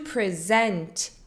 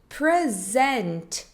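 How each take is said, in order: First: The stress is on the second syllable. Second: The stress is on the first syllable. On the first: It means to introduce or show. "To present significa apresentar" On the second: It means a gift or being here. "A sílaba tônica é diferente"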